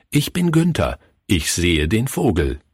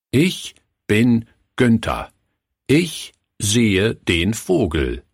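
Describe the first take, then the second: First: Said in the usual way. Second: "Ich bin Günther. Ich sehe den Vogel." slow, word by word; dramatic pause before each word. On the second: A narrator's reading. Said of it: "mit einer wirkungsvollen Pause vor jedem Wort". („Ich bin Günther. Ich sehe den Vogel.“ langsam, mit wirkungsvoller Pause vor jedem Wort)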